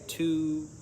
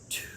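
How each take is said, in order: First: It is spoken in a full, normal voice. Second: It is spoken in a soft whisper. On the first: "let's say two" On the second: "Let's whisper it this time. I'll go first"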